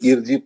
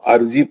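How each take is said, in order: First: The word begins with an 'i' vowel. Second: The word begins with an 'a' vowel. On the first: "जेर" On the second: "जबर"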